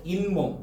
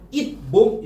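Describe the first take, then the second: First: 잇몸 as in-mom, the t turned to n; natural 잇몸. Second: 잇몸 split as it, mom with a stopped t; unassimilated 잇몸. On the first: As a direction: link 잇몸 smoothly with an n. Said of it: "이런 식으로 발음하잖아요". ("인몸"으로 이어서 발음) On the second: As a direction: break 잇몸 after a hard final t. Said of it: "이렇게 발음하지 않고". ("읻, 몸"으로 끊어서) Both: Shown as a demonstration.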